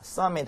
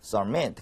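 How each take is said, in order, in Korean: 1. 강세는 첫 음절에 있어요. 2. 강세는 두 번째 음절에 있어요. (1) "하지 않고" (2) "후음절의 강세가 있죠"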